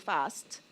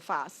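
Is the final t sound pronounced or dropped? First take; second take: pronounced; dropped. First: The final t sound is pronounced. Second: The final t sound is left out.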